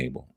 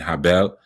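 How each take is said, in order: First: The name starts with a vowel sound. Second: The name starts with an h sound. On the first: "I'm talking about Cain and Abel" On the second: "the right pronunciation is Cain and Habel"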